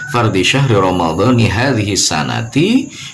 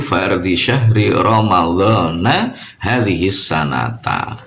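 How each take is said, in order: First: Ramadhan and sanah end with an i vowel. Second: Ramadhan and sanah end with an a vowel. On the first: The month name is treated as possessed by this year. "Boleh kita membacanya" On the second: This year works as a time adverb. "boleh juga di situ"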